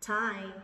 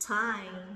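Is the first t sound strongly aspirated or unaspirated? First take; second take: aspirated; aspirated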